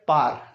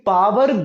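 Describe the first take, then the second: First: The word is compressed, nearly one syllable. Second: The word has two clear syllables. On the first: The speaker calls it right. "Correct pronunciation है" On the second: The speaker calls it wrong. "पावर गलत pronunciation है"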